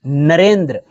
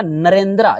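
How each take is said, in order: First: नरेंद्र with no final vowel; नरेंद्र ending on the consonant cluster, the Hindi way; Hindi pronunciation. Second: नरेंद्रा with a long final "a"; नरेंद्रा the English way with a final "aa"; English-style ending. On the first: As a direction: say नरेंद्र stopping on "-dr". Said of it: "लेकिन हिंदी में नरेंद्र". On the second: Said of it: "English में क्या हो जाएगा आपका?". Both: Shown as a demonstration.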